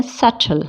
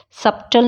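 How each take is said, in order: First: सटल with t alone in the middle; सटल, no b before t; silent B. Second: सब्टल with a b/p before t; सब्टल, lips closing mid-word; sounded B. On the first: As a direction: say सटल as suttle. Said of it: "इसको क्या बोलते हैं?". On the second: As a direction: say सब्टल as sub-tul. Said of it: "सब्टल नहीं बोलते". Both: Shown as a demonstration.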